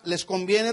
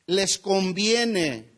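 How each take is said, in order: First: Said in the usual way. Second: "Les conviene" drawn out very slowly, falling on "conviene"; slow emphasis. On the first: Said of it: "Esta palabra". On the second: Shown as a demonstration. Pastor stresses the key phrase to the congregation, very slow and emphatic. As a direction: lean on "Les conviene", word by word. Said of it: "Esta palabra, "les conviene".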